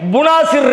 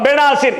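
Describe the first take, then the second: First: The first vowel is a u sound. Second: The first vowel is an e sound. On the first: The speaker calls it right. "புனாசிர் இருக்கு" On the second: The speaker calls it wrong. "பெனாசிர் இல்லப்பா, இது அரபி கிடையாது"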